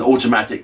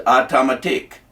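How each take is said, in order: First: Said in the usual way. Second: "automatic" in imitated West Indian pronunciation; West Indian accent. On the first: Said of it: "I had a mate called Georgie Campbell who said that". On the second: Imitating a West Indian mate saying "automatic", in his accent. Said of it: "had West Indian accents".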